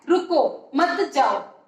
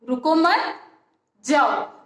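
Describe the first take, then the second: First: There is a pause after रुको. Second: There is a pause after मत.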